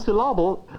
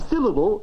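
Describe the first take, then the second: First: The stress falls on an unusual syllable. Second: The stress falls on the usual syllable. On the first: The speaker calls it wrong. "if we stress the wrong syllable" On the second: The speaker calls it right. "I mean syllable"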